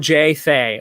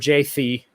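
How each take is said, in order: First: The second syllable rhymes with 'J'. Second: The second syllable does not rhyme with 'J'. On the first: "J and Thee don't rhyme like J and Thay" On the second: "J and Thee don't rhyme"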